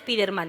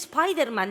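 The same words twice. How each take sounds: First: It is pronounced the Spanish way. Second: It is pronounced the English way. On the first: "que ponen Spiderman" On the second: "que se dice Spiderman"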